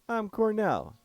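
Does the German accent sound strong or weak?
weak. The German accent is weak and unconvincing. The speaker calls it wrong. "I screwed up that accent"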